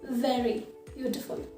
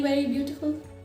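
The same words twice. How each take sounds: First: Very begins with a V sound, teeth on lip. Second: Very begins with a rounded-lip W-like sound. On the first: The speaker calls it right. "cut your above teeth on the lower lip" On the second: The speaker calls it wrong. "That sounds weird"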